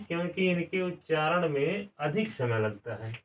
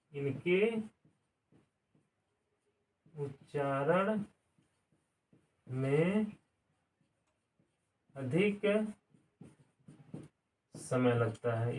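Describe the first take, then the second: First: Said in the usual way. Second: Each word spaced out slowly with long pauses; quiet, slow word-by-word dictation. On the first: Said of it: "इसलिए इनको क्या कहते हैं". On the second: Shown as a demonstration. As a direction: spell it out slowly for students to write. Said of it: "teacher repeats slowly to dictate".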